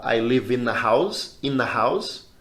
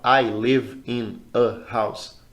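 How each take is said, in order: First: "in a house" run together as "inna house"; linked words. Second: "I... live... in... a... house", very slow; stopping between words. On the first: Teacher showing the easier connected way, words linked. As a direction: glide "I live in a house" without stops. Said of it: "É mais fácil eu falar". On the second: Teacher showing the harder way to say it, stopping each word. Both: Shown as a demonstration.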